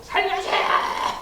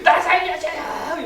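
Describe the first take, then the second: First: High, slow, breathless plea to be saved; mock panicked plea for rescue; desperate cry for help. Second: Much higher, slow, louder wailing plea; desperate cry for help. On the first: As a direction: wail it like a drowning man begging. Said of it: "우리 그냥 흔히 하는 말로 하면". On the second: Retold or imitated. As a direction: beg for your life, hammed up. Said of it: "이렇게 될 거예요".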